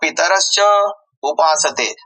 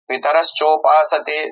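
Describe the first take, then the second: First: It is split into two separate words. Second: It is said as one joined word. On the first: The speaker calls it wrong. "असे उच्चारू नये" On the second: The speaker calls it right. "एकच मोठ्या पदास तोड करून उच्चारू नये"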